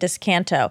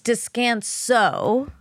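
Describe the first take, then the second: First: The consonant before the final vowel is a t. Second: The consonant before the final vowel is an s. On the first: The speaker calls it wrong. "you're saying Descanto" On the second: The speaker calls it right. "it's Descanso Gardens"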